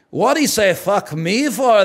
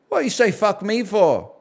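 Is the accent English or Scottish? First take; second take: Scottish; English. First: It is spoken in a heavy Scottish accent. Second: It is spoken in an English accent. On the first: "Leaning heavily into the fat bastard accent" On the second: "I said an English accent"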